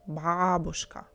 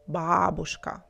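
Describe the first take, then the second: No difference in how they are said.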